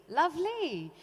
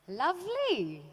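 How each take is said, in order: The two takes are said the same way.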